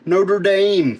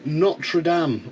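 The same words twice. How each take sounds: First: It is said with an American pronunciation. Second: It is said without an American pronunciation.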